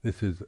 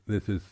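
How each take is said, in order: Both takes have the same delivery.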